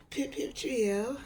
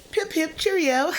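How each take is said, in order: First: Slow, quieter British "Pip, pip, Cheerio"; hushed mock British; softer mock British accent. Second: High, slow, plummy British "Pip, pip, Cheerio"; jokey upper-class British voice; mock British accent. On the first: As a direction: murmur it like an English gent. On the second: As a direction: toff it up like an English gent. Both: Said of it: "some type of accent".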